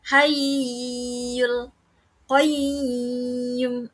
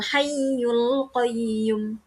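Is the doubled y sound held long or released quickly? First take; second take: held long; released quickly. First: The doubled y is held long and drawn out. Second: The doubled y is stressed then released quickly. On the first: The speaker calls it wrong. "itu salah ya, karena tidak dibaca dengung" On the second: The speaker calls it right. "langsung saja setelah ditekan, tidak perlu ditekan lama"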